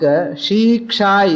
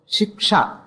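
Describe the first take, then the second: First: The first vowel is said long. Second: The first vowel is said short. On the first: The speaker calls it wrong. "It is not long, but in the book, shiksha is there" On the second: The speaker calls it right. "the right form is shiksha, short shakara, shi"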